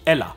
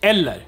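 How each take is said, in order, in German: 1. Die Endung -er in „eller“ wird verschluckt. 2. Die Endung -er in „eller“ wird voll ausgesprochen. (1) "nicht Ella" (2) "Die ganze Endung darf nicht verschluckt werden"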